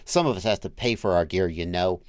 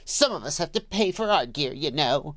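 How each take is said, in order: First: It is read in a neutral tone. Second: It is said in a snide, mocking tone.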